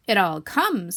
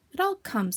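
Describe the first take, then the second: First: Loud, firm scolding; emphatic, reproving retort; stern. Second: Mildly cross, higher-pitched grumble; a touch of huffy complaint. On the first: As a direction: lay down the blame sternly. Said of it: "said Rabbit sternly". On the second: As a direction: grumble the blame at someone. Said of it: "said Pooh crossly". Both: Acted.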